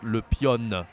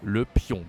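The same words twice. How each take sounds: First: 'pion' drawn out with a hard N at the end; mistaken sounded N. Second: 'pion' ending on a nasal vowel, no N sounded; careful French 'pion' with silent N; correct nasal ending. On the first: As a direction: say 'le pion' slowly as p-yonn. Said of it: "We don't say the, the N here". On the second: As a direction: model 'Le pion' as luh p-yon, rounded nasal. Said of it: "Be careful, it's not le pion". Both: Shown as a demonstration.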